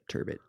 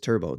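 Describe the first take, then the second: First: The final T sound is pronounced. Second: The final T sound is silent. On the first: "there are people out there that call it turbot" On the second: "The French pronunciation of it is turbo. That to leave that T"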